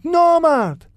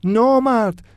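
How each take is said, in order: First: نامرد screamed far higher and louder, long falling cry; final scream. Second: Loud, higher cry of نامرد with a falling end; shouting. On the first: Iman screaming the last insult at the bully. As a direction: let نامرد break out at the very top. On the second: Iman shouting at the bully who broke his violin. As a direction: yell نامرد in shock. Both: A narrator's reading. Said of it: "فریاد میزد".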